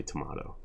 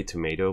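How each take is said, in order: First: Tomato pronounced "tuh-MAH-toh"; broad-A tomato. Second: Tomato pronounced "tuh-MAY-toh"; long-A tomato. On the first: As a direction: give tomato a broad "ah" in the middle. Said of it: "if I want to annoy someone". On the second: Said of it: "I'll say tomato". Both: Shown as a demonstration.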